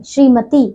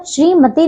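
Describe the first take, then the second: First: श्रीमती with a long final "tee"; correct pronunciation. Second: श्रीमती with a short final "ti"; mispronunciation. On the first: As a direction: draw out the end of श्रीमती. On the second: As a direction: cut the end of श्रीमती short. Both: Shown as a demonstration. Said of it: "श्रीमती नहीं".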